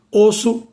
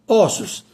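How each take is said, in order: First: "osso" with closed ô. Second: "ossos" with open ó. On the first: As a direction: say "osso" as Ô-sso. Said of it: "o O permanece com o timbre fechado". ("osso" com ô fechado) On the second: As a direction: say "ossos" as Ó-ssos. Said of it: "passa para o timbre aberto". ("ossos" com ó aberto) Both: Shown as a demonstration.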